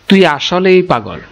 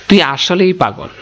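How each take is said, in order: Both takes have the same delivery.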